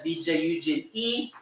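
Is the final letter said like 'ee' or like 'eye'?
ee. The last letter sounds like 'ee'. "in Europe they pronounce it as [name]"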